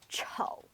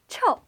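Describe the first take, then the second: First: The syllable is said with a low pitch. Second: The syllable is said with a falling pitch. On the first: It means ugly. "with the third tone, or the low tone" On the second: It means stinky. "the fourth tone, or the falling tone"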